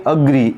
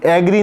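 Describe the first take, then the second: First: अग्री said as "uh-gree"; teacher's correct model of अग्री; correct schwa start. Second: एग्री mispronounced as "ay-gree"; teacher showing the common error एग्री; mistaken "ay" start. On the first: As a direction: begin अग्री with a short, unstressed "uh". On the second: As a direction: open एग्री on "ay" instead of "uh". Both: Shown as a demonstration. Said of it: "एग्री नहीं पढ़ेंगे".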